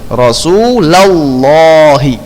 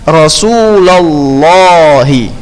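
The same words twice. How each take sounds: The two takes are said the same way.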